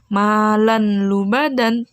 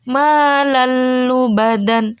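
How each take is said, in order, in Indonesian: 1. Bunyi n terdengar sebelum l. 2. Bunyi n melebur menjadi l yang ganda. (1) "Jadi bukan"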